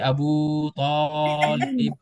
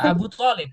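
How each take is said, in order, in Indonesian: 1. Vokal panjangnya dipanjangkan sangat panjang. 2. Vokal panjangnya hanya dibaca sedang. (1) "nggak mesti"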